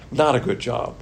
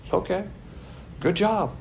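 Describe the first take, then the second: First: Said in the usual way. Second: Dry mock praise, slightly higher; sarcastic. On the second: Shown as a demonstration. Pastor mocking people who let doctrine slide, sarcastic praise. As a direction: say good job like you mean the opposite. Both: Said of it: "That's said sarcastically".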